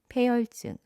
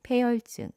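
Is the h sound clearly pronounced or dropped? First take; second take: dropped; dropped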